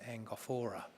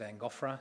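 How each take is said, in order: First: The name is said with four syllables. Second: The name is said with three syllables. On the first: This is how some other people say it. "Some people would pronounce it Angophora" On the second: This is the speaker's own preferred pronunciation. "I would pronounce it Angophra"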